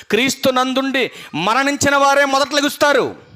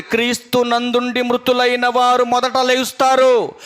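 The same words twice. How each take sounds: First: వారే pressed hard with a falling tone; stress on వారే. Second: Said in the usual way. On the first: Shown as a demonstration. Preacher stressing వారే so the church underlines it. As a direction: lean on వారే as the key word. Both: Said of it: "underline చేసుకోండి".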